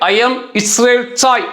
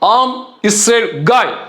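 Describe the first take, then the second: First: The last word begins with a ch sound. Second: The last word begins with a throaty k sound. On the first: The speaker calls it wrong. "அது தவறு" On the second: The speaker calls it right. "மிகச்சரியாக இப்படிதான் உச்சரிக்கணும்"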